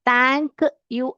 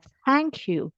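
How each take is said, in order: First: The 'th' sound is strong and heavy. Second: The 'th' sound is soft and light. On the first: The speaker calls it wrong. "ऐसे नहीं बोलने का" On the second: The speaker calls it right. "T H जो है बहुत light pronunciation करना है"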